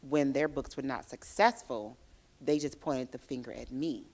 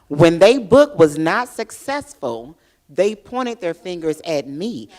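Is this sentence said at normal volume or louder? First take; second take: normal; louder. First: It is said at a normal, conversational volume. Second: It is said louder, with more force.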